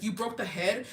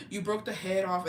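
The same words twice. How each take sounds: First: "You broke the head?" rising into a question; questioning teacher. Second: Gasp, then a mock-shocked statement. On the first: Retold or imitated. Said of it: "and she's like". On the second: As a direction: retell a child's startled discovery. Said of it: "And I was like".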